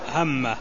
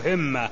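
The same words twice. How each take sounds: First: The vowel after the first consonant is a. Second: The vowel after the first consonant is i. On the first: "بفتح الهاء" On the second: "وكسرها"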